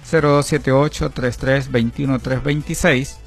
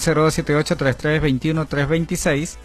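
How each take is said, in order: First: The numbers are said slowly. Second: The numbers are said fast.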